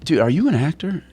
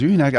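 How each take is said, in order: First: High-pitched, probing question; retold cop sizing someone up, pitch raised; intense. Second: Retold cop easing off into curiosity; higher-pitched, less confrontational question; slightly softened. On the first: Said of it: "really, you know, intense". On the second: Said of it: "he softened it a little bit".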